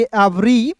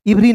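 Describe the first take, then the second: First: एवरी opening on a short E; correct pronunciation. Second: इवरी opening on an I; wrong pronunciation. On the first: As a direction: say एवरी as "ev-ree" with a drawn final ee. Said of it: "तो इसे पढ़ेंगे एवरी". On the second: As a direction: say every as "iv-ree", इवरी. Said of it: "इवरी नहीं". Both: Shown as a demonstration.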